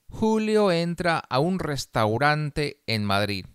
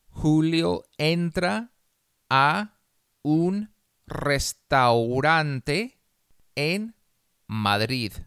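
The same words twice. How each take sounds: First: The sentence is read at a faster pace. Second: The sentence is read very slowly. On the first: "más rápido" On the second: "una vez muy despacio"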